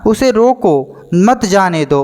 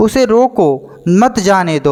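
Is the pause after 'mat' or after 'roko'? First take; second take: after roko; after roko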